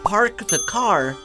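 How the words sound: The R sounds are pronounced, rhotic.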